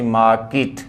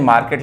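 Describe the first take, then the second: First: मार्केट as 'maaa-kit', silent R; long first vowel in मार्केट, short 'kit' ending; correct pronunciation. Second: मार्केट with R and 'ket'; common Indian pronunciation. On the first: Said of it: "लेकिन होता सही मार्केट". (मार्केट को 'माऽ-किट' बोलें) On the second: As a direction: say मार्केट as 'maar-ket'. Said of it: "इसको बोलते हैं मार्केट". (आम बोलचाल वाला मार्केट, 'र' के साथ) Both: Shown as a demonstration.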